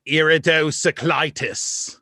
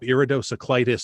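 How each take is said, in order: First: Slow, drawn-out iridocyclitis; creepy slow iridocyclitis, each syllable dragged; imitating a creepy speller. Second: Said in the usual way. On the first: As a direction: stretch out iridocyclitis eerily. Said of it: "But the way he said it". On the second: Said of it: "look that up".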